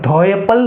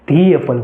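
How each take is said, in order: First: 'The' is said with a short 'thuh' vowel. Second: 'The' is said with a long 'thee' vowel. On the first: The speaker calls it wrong. "તો અહીંયા તમે ધ એપલ નહીં" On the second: The speaker calls it right. "ધી એપલ વાંચશો"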